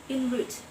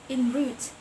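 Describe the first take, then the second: No difference in how they are said.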